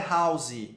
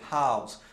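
First: The word ends with an added vowel sound. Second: The word ends cleanly on an s sound. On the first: The speaker calls it wrong. "Não é house" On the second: The speaker calls it right. "é house"

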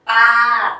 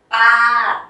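First: The syllable is said on a level mid pitch. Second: The syllable is said on a level mid pitch.

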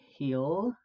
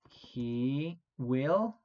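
First: The words merge into one contracted syllable. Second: Both words are said in full, unreduced. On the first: "if I want to do this one with the contraction, it would go heel" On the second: "that's gonna go in future as he will love Chicago"

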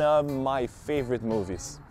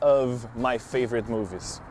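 First: The V sound of 'of' is dropped. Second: The V sound of 'of' is pronounced. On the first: "você pode omitir esse som do F" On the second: "Eu não preciso falar of my favorite movies"

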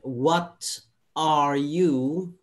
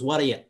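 First: Each word is said separately and fully. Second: The words blend together into one reduced chunk.

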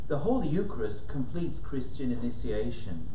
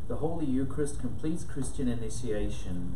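First: It is said in a lively, engaging voice. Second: It is said in a plain, even voice. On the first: The text is proclaimed to engage listeners and bring it alive. "But a proclamation would be more like this" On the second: The text is simply read so its sense comes across. "let me just read something to you"

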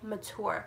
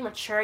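First: The word is said in an affected, fancy way. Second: The word is said in an ordinary way. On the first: "certain words people make really bougie so they sound smarter" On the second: "instead of saying mature"

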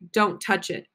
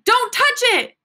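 First: It is said as a plain, firm command. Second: It is said as a loud, sudden exclamation. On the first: It is a command. "a command" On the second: The speaker is exclaiming. "You're exclaiming"

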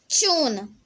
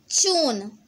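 First: It is said with a British accent. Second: The same.

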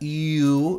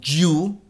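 First: It begins with a soft vowel-like glide. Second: It begins with a hard consonant sound. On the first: The speaker calls it right. "esta Y la pronunciamos como una I" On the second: The speaker calls it wrong. "no como una Y"

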